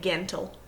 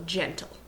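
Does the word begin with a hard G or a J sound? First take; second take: hard G; J sound. First: The word begins with a hard G sound. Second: The word begins with a soft J sound. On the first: The speaker calls it wrong. "we don't say" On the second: The speaker calls it right. "it's going to say J as well"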